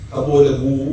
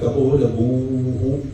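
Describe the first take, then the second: First: The word ends plainly on the long vowel. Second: The word ends with a breathy 'hu' echo. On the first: The speaker calls it wrong. "കപോലഭൂ എന്ന് പറഞ്ഞ് നിർത്തരുത്" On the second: The speaker calls it right. "ഇങ്ങനെ പറയണം"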